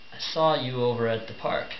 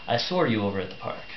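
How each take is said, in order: First: 'Saw' runs into 'you' with no R sound. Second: An R sound links 'saw' to 'you'. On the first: "if instead of saying I saw" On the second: "they slip it back in"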